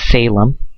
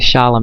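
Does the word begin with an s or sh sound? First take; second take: s; sh. First: The word begins with an s sound. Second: The word begins with a sh sound. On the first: The speaker calls it wrong. "not Salem" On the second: The speaker calls it right. "the correct pronunciation, Shemitic, would be Shalom"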